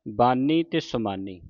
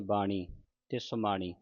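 First: ਬਾਨੀ and ਸਮਾਨੀ with n at the teeth; slowly, tongue forward for the n in ਬਾਨੀ, ਸਮਾਨੀ; ਬਾਨੀ, ਸਮਾਨੀ with dental n, the corrected reading; plain dental n. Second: ਬਾਣੀ and ਸਮਾਣੀ with a retroflex ṇ; ਬਾਣੀ, ਸਮਾਣੀ with ṇ, the mistaken reading. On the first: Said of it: "ਨੰਨੇ ਦੀ ਆਵਾਜ਼ ਉਚਾਰਨ ਕਰਨੀ ਹੈ". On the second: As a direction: curl the tongue back for the n in ਬਾਣੀ, ਸਮਾਣੀ. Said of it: "ਕਈ ਸੰਗਤਾਂ ਨੂੰ ਬਾਣੀ ਪੜ੍ਹ ਜਾਂਦੀ ਹੈ". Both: Shown as a demonstration.

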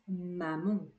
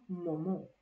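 First: "maman" with a clear open first A, nasal only at the end; non-nasal first A. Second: "momon" with both vowels the same nasal on-sound; wrongly nasalized first vowel. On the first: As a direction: keep the first A of "maman" oral, nasalize the second. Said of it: "não influencia sobre o primeiro A". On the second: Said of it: "e não momon". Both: Shown as a demonstration.

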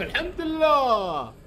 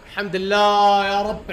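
First: High stretched sigh of الحمد لله; high slow exhausted relief; drawn-out relief. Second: Loud slow thankful cry; loud slow relief; relieved shout. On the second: Relief after winning fight. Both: Real, not acted.

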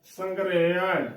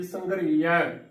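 First: ਸੰਘਰੇਆ slowly, as "sangre-ya"; correct sihari sound. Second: ਸੰਘਰੀਆ as "sangree-ya"; wrong bihari sound. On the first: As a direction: model ਸੰਘਰੇਆ slowly with "re", falling at the end. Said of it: "ਇਹਦਾ ਜੋ ਸਹੀ ਉਚਾਰਨ ਹੈ". (ਸੰਘਰੇਆ ਹੌਲੀ, "ਰੇ" ਦੀ ਆਵਾਜ਼ ਨਾਲ) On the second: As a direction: give ਸੰਘਰੀਆ a long ee after the r. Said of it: "ਸੰਘਰੀਆ ਗਲਤ ਉਚਾਰਨ ਹੋਵੇਗਾ". (ਸੰਘਰੀਆ ਵਿੱਚ ਬਿਹਾਰੀ ਦੀ "ਰੀ") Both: Shown as a demonstration.

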